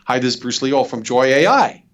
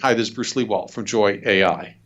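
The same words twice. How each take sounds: First: The voice rises at the end. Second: The voice falls at the end. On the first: It sounds like a typical salesperson. The speaker calls it wrong. "the uptone just goes, "Oh, no, another salesperson."" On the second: It sounds authoritative and worth listening to. The speaker calls it right. "the downbeat is authority"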